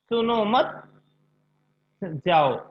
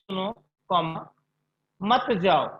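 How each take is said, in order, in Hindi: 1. विराम दूसरे शब्द के ठीक बाद आता है। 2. विराम पहले शब्द के ठीक बाद आता है।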